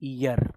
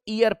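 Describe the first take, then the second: First: The word begins with a y sound. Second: The word begins with a plain vowel sound. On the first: The speaker calls it right. "इसको पढ़ने का तरीका होता है ईयर।" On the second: The speaker calls it wrong. "बहुत सारे बच्चे इसको ईयर पढ़ते हैं, ये ऐसे नहीं पढ़ा जाता।"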